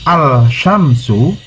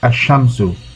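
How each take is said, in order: First: The L is pronounced separately before sh. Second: The L merges into a doubled sh sound. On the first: "no change take place in writing" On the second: "dibaca asyamsu"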